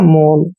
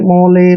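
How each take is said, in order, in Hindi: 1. शब्द का अंत L की ध्वनि से होता है। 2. शब्द के अंत में एक अतिरिक्त स्वर की ध्वनि है। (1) "ओ एल ई को ओल पढ़ते हैं भाई" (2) "इसको अक्सर पढ़ते हैं रोले मोले पोले, ऐसे नहीं पढ़ना है"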